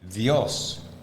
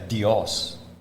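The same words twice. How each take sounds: First: The D is soft, close to the 'th' in 'the'. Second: The D is a hard, explosive stop. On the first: The speaker calls it right. "we will say Dios" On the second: The speaker calls it wrong. "We don't say Dios"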